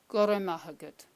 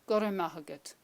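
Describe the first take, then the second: No difference in how they are said.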